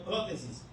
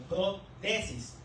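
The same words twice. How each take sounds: First: "prótesis" joined up, stressed on PRÓ; PRÓtesis pronunciation. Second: "protesis" softly split as pro–TESIS; pro-TESIS pronunciation. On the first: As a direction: say "prótesis" softly as one word, accent up front. ("prótesis" seguido, con acento en PRÓ) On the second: ("protesis" bajo y separado: pro… TESIS) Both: Shown as a demonstration. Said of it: "Por eso se pronuncia".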